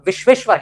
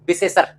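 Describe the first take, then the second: First: The clusters are said in full, with 'shv'. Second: The clusters are simplified, without the 'v' sounds. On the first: This is the pure Sanskrit form of the name. The speaker calls it right. "शुद्ध रूप में विश्वेश्वर" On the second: This is the everyday village form of the name. The speaker calls it wrong. "विशेषर कह देते हैं"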